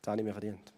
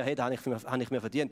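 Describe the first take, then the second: First: Quiet admission. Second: A touch of smug entitlement, as if claiming a reward; mock self-satisfied "Hey, das habe ich mir verdient"; entitled attitude. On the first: Shown as a demonstration. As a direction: lower and softer, a quiet honest confession. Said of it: "Ich meine, ich habe gearbeitet dafür". (leise, tiefer, ehrlich eingestanden) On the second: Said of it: "oder eher". (leicht selbstgefällig, anspruchsvoll)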